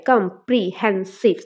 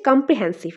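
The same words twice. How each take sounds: First: Slow comprehensive split as কম - pre - হেন - সিভ; syllable by syllable. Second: Said in the usual way. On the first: Shown as a demonstration. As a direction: say comprehensive in four separate, lower beats. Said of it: "syllable division করলে চারটা আসে". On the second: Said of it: "syllable division করলে".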